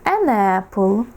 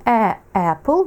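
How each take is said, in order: First: An apple linked, an running into apple; an apple said right, as one word; correct an apple. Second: A apple with a break before apple; a apple said wrong, two separate words. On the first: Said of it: "тому ми кажемо". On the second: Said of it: "буде негарно". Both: Shown as a demonstration.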